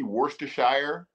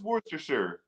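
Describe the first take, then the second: First: Every letter of the word is pronounced. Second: The word is said in its usual shortened form. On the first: "Or if you want to be extra fancy" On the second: "It is Worcestershire"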